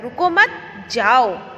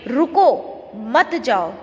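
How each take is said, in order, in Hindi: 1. दूसरे शब्द के बाद विराम है। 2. पहले शब्द के बाद विराम है। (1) "फिर अल्प विराम लगा है" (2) "रुको के बाद क्या लगा हुआ है यहाँ पे कौन सा विराम चिन्ह लगा है अल्प विराम"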